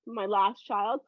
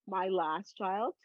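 First: Said in the usual way. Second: A slow, quiet echo to close the matter; slow, quieter repeat. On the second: Real, not acted.

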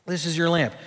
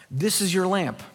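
First: This is your LAMP, weight on "lamp"; stress on lamp. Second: This is YOUR lamp, weight on "your"; stress on your. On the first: Pastor repeating the point to his flock, stress on "lamp". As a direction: land the word "lamp" firmly, falling. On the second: Pastor pointing to the congregation's eyes, stress on "your". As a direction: lean on "your" like it belongs to them. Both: Shown as a demonstration.

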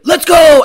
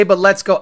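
First: Mock hype shout. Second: Said in the usual way. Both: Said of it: "I hate the say".

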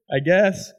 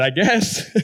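First: Laughing I guess; sheepish laugh at his own answer. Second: Said in the usual way. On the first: Retold or imitated. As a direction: chuckle through the repeat. Repeats it with a laugh.

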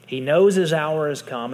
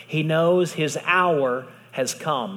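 First: Said again with more force on knows; preacher repeating the line to the congregation, louder; louder restatement. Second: Preacher slowing on a solemn truth to the congregation, slowly; slow, weighty. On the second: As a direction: stretch each word, knows drawn out. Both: Shown as a demonstration.

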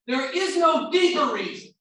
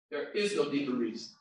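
First: High, loud, emphatic; loud preaching declaration; shouted. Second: Hushed echo of the shout; quiet repeat. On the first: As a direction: shout the point to the back row. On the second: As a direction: let it sink in quietly. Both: Shown as a demonstration. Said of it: "repeated quietly".

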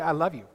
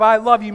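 First: Said in the usual way. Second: "I love you" said loud and hard, sounding angry; unintentionally angry-sounding "I love you"; harsh loud I love you. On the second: Shown as a demonstration. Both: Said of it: "means I'm ripping her a new one".

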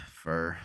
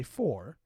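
First: "for" said as "fur"; Utahn "for". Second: "for" with a full OR vowel; standard "for". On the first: Put on the spot to show how Utahns say it, "for" as "fur". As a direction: say "for" to rhyme with "her". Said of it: "and Utahns say". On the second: Showing how most people outside Utah say it, standard "for". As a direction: say "for" to rhyme with "door". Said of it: "Most people will say". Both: Shown as a demonstration.

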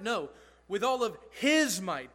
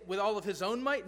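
First: "his" stressed, "No" firm, louder; corrected reading. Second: "with all of his own might?" offered as a rising question, "own" included; wrong reading as a question. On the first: Pastor corrects the congregation's misreading, emphatic on his. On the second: Pastor tests the congregation with the wrong reading, questioning. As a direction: float the mistaken version as a question. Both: Shown as a demonstration.

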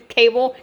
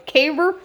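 First: Said in the usual way. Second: "Caber" with a country accent, dropped final l; Southern country "Caber" slipping out. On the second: Real, not acted. Catching her own country accent saying "Caber". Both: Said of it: "there's that country accent".

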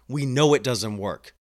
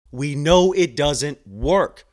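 First: Said in the usual way. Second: "know" and "doesn't work" hit hard, drawn out slowly; slow, louder, hammering "We know it doesn't work"; emphatic repeat. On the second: Real, not acted. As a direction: drive home each word of "We know it doesn't work".

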